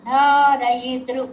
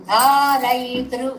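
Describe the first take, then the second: The two takes are said the same way.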